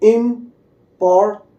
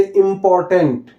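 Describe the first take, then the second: First: important in three separate beats, "इम... पोर... tent"; split into syllables. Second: Said in the usual way. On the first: Shown as a demonstration. Teacher showing the separate syllables, broken-up demo. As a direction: pause after each syllable of important. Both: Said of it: "ये अलग-अलग syllable हो गया".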